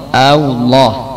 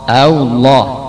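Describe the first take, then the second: No difference in how they are said.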